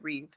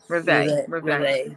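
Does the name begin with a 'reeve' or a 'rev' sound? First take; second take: reeve; rev. First: The name begins with a long 'reeve' sound. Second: The name begins with a short 'rev' sound. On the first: The speaker calls it wrong. "I was pronouncing it wrong. I was pronouncing it Reeve" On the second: The speaker calls it right. "And you pronounce Reveille"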